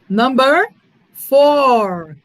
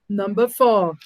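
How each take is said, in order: First: It is said in a non-British, American-style accent. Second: It is said in a British English accent.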